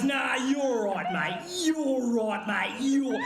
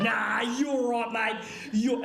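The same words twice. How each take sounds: First: Slow, mock passive-aggressive Aussie bloke; lightly drawn Aussie mate holding back. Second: Slow mock Aussie "Nah, you're right, mate" with restraint; a touch of a hammed-up Aussie bloke; passive-aggressive Aussie. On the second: Shown as a demonstration. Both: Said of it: "the most passive-aggressive Aussie male thing".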